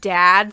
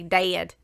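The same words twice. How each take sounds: First: It is said with an Ohio accent. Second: It is said with a Kentucky accent.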